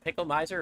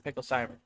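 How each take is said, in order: First: The middle part sounds like 'my'. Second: The middle part sounds like 'sim'. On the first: The speaker calls it wrong. "he said it was Miser" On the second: The speaker calls it right.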